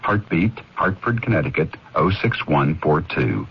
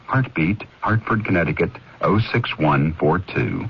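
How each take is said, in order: Both takes have the same delivery.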